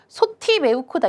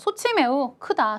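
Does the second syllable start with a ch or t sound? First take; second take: t; ch. First: The second syllable starts with a t sound. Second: The second syllable starts with a ch sound. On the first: The speaker calls it wrong. "이렇게 읽습니까? 아니죠" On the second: The speaker calls it right. "자연스럽게 그냥 소치라고 하잖아요"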